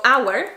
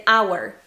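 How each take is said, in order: First: Hour said like our, a touch louder; no breath before hour; silent H. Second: Hour said like our, no H at all; silent H. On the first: Teacher repeating silent H, hour without H. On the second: Teacher showing silent H, hour without H. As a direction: drop the H of hour. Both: Shown as a demonstration. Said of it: "on va pas dire le H".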